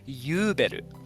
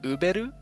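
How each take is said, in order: First: The name starts with a y sound. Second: The name starts with a plain vowel. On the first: "the Japanese pronunciation is Yuberu" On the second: "instead of like Uberu"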